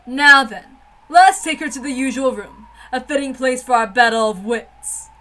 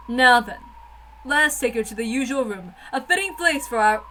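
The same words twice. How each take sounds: First: Louder, more declaiming line reading; bolder retake. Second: Said in the usual way. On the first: Shown as a demonstration. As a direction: say it again with full dramatic weight. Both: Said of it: "Did I say that right?".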